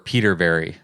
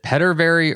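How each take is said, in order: First: The first syllable sounds like 'Pete'. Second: The first syllable sounds like 'pet'. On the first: The speaker calls it right. "just like it's it's spelled. It's Peterberry" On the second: The speaker calls it wrong. "I've been pronouncing it wrong forever"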